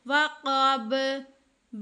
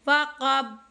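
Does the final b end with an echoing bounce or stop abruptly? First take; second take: echo; stopped. First: The final b releases with an echoing bounce. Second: The final b stops dead with closed lips. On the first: The speaker calls it right. "ये बे की जो आवाज़ आ रही है ये है कलकला" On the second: The speaker calls it wrong. "मैंने होंठ मिलाए मैंने वहीं पे चुप कर गई, तो ये तरीका गलत है"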